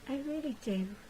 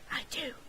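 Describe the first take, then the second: First: It is said aloud in a normal voice. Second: It is whispered under the breath.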